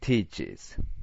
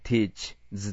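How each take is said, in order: First: A vowel comes between the ch and the z. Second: The z follows the ch directly, with no vowel. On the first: The speaker calls it right. "ここではねis って読むんだよね" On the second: The speaker calls it wrong. "ちょっと言いにくくないteach ずってのはね"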